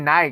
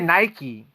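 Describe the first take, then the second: First: It uses the European pronunciation. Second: It uses the American pronunciation. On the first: "you say Nike. Oh, so that's a European influence" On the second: "I say Nike. I think Americans"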